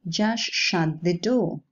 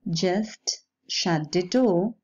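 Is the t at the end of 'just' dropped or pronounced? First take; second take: dropped; pronounced. First: The t at the end of 'just' is dropped. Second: The t at the end of 'just' is pronounced.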